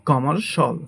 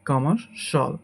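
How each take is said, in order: The two takes are said the same way.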